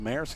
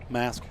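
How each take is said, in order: First: The word is said unlike the word mask. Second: The word is said just like the word mask. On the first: This is how the speaker expected it to be said. "isn't it pronounced Maersk?" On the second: This is how the locals say it. "They're like, nope, mask"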